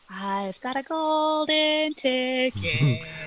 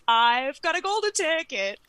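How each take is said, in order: First: It is said in a creepy, unsettling tone. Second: It is said in an excited, delighted tone. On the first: The speaker calls it right. "Oh, right, creepy" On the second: The speaker calls it wrong. "Oh my God, you guys"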